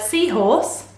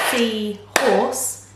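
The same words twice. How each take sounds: First: Said in the usual way. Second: "seahorse" in two separate chunks, sea, horse; split into syllables. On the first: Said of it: "chunks of sound that make up". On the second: Shown as a demonstration. Teacher showing children the syllables, "seahorse" split in two. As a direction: break "seahorse" apart with a gap between sea and horse. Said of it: "how many syllables does that have".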